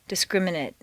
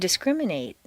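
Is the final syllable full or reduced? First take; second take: reduced; full. First: The last syllable has a weak reduced vowel. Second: The last syllable has a full 'ay' vowel. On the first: It is used as a noun or adjective. "completely reduced to mt" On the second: It is used as a verb. "a full a sound"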